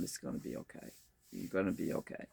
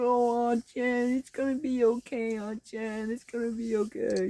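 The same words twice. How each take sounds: First: Very soft, low, hushed reassurance; tender, near-whispered consoling; soothing sister. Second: Put-on singsong toddler reassurance, pitched way up; comforting toddler. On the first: Retold or imitated. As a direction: murmur gentle comfort while rubbing someone's back. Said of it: "she's just rubbing my back and going". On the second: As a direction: imitate a tiny nephew sweetly consoling his aunt. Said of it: "two-year-old nephew, he comes over".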